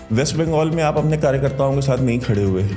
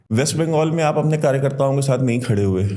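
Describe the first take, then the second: The two takes are said the same way.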